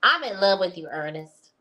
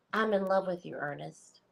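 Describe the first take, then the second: First: Louder, emphatic woman's impression; punched-up reading in her character. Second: Said in the usual way. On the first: Shown as a demonstration. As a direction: say it as the lovestruck woman would. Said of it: "I said that in my voice, but this is". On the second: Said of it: "I said that in my voice".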